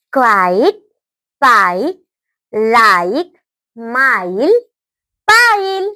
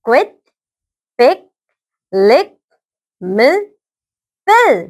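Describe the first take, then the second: First: क्वाइट, पाइप, लाइक, माइल, पाइल with a drawn-out "eye" vowel; long i sound. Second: क्विट, पिक, लिक, मिल, पिल with a brief "ih" vowel; short i sound. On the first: Teacher repeats for children क्वाइट, पाइप, लाइक, माइल, पाइल, long "eye". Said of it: "long sound". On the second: Teacher repeats for children क्विट, पिक, लिक, मिल, पिल, short "ih". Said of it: "short sound". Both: Shown as a demonstration.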